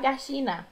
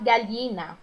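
First: The double L sounds like sh. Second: The double L sounds like a palatal lh. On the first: "como se fosse um X" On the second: "como se fosse um LH"

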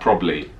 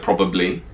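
First: The word is shortened, dropping a syllable. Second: The word is said in full with three syllables. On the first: "I drop the A extra A B" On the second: "Instead of probably"

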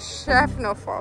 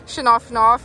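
First: The name sounds like 'Schaffelfo', with an L sound. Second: The name sounds like 'Schnaufnoff', with nasal consonants. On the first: The speaker calls it right. "descobrimos como é que fala" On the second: The speaker calls it wrong. "a gente só falava assim"

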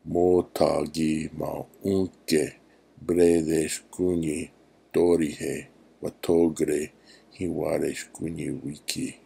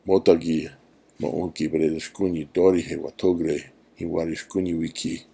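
First: It is said at medium speed. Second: It is said at normal speed.

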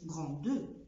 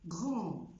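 First: The final e is sounded. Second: The final e is silent. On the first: The speaker calls it wrong. "ما بقولش غراندو" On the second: The speaker calls it right.

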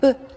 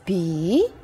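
First: The letter is said as a short soft consonant. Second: The letter is said as its full alphabet name. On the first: "but in the word, it is just short, soft B" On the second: "In the alphabet, we pronounce this letter as B"

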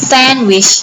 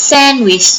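The two takes are said the same way.

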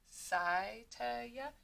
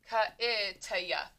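First: The word begins with an S sound. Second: The word begins with a K sound. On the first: "what if we tried to say this with a long I and a soft C?" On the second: "if you were to say this with a hard C and a short I"

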